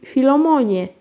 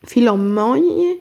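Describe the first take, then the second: First: Said in the usual way. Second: Slow, puzzled Filomonie? lifted as a question; astonished question. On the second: A narrator's reading. Karolcia echoes the driver, slowly and amazed. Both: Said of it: "zdumiała się Karolcia".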